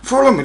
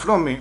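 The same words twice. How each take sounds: First: Louder, higher follow me. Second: Said in the usual way. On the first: Retold or imitated. The American calls out follow me loudly. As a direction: follow me called high and loud like an order. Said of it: "λέει". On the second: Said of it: "Λέω".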